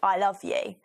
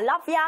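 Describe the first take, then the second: First: The last word is a full 'you'. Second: The last word is reduced to 'ya'. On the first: It is sincere, deep love. "I love you is when you say like, oh, I love you in someone's eyes" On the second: It is casual, everyday affection. "Like I say to more everyone when I wake up"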